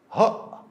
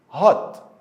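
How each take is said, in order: First: The word ends with a glottal stop. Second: The word ends with a clear t sound.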